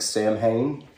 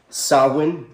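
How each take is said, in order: First: Samhain said as it looks, SAM-hayn; spelling pronunciation. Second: Samhain said SOW-in, no M sound; correct Celtic pronunciation. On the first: Showing how the word looks, Samhain mispronounced as SAM-hain. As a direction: read Samhain letter for letter, sounding M and H. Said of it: "word that looks like Samhain". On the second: Teaching the congregation the word, correct pronunciation of Samhain as SOW-in. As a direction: say Samhain as "SAH-win", two syllables. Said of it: "how you pronounce the word". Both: Shown as a demonstration.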